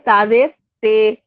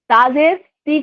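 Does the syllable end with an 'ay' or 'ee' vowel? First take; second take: ay; ee. First: The syllable ends in an 'ay' vowel. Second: The syllable ends in an 'ee' vowel. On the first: The speaker calls it wrong. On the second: The speaker calls it right.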